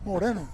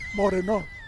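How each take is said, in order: First: The stress falls on the middle syllable. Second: The stress falls off the middle syllable. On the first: The speaker calls it right. "Almost like Moreno" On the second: The speaker calls it wrong. "not Moreno"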